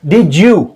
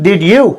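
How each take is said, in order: First: "did you" squeezed into di-joo; fuse "did you" with a J in the middle; blended J sound. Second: "did you" with d and y kept apart; separate words. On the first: Teacher showing the native way, blended. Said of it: "the sound of J". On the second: Teacher showing what natives don't say, unblended. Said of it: "They don't speak did you". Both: Shown as a demonstration.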